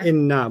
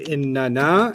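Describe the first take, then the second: First: The two nun sounds are merged into one. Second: The two nun sounds are said separately. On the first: "smush those noons together and just say what?" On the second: "sometimes the Arabs like to say inna na"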